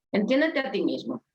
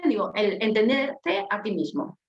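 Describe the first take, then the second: First: Said in the usual way. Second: Slowed down, each word placed; measured list item; slow, measured statement. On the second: Shown as a demonstration. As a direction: lay it out slowly like a heading. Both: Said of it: "me gustó ponerlo en orden".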